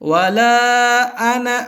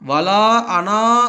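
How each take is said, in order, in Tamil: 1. 'ana' இன் கடைசி உயிரெழுத்து குறுகியதாக ஒலிக்கப்படுகிறது. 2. 'ana' இன் கடைசி உயிரெழுத்து நீட்டி நீண்டதாக ஒலிக்கப்படுகிறது.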